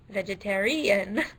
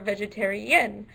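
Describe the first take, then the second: First: The stress is on the fourth syllable. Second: The stress is on the fifth syllable. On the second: "or fifth"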